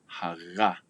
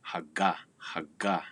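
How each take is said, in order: First: "haga" with a continuous throaty fricative. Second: Haga with a hard stopped g. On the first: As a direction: let the g in haga flow without stopping. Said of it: "let it flow continuously". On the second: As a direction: say haga with a full English G, air blocked. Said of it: "with the hard G". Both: Shown as a demonstration.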